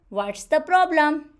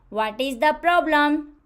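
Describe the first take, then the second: First: 'What is' is contracted into one syllable. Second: 'What is' is said as two full words. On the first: The speaker calls it right. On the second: The speaker calls it wrong.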